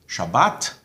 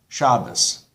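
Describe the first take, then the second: First: The stress is on the last syllable. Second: The stress is on the first syllable. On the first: This is the modern Israeli pronunciation. "modern Israeli Hebrew ... emphasis on the last syllable"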